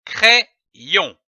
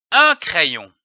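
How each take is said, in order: First: "crayon" split in two, cré, yon, with a pause; syllable by syllable. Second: Said in the usual way. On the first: Shown as a demonstration. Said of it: "L'association de ces deux syllabes". (« crayon » en deux syllabes détachées) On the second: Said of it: "donne le mot".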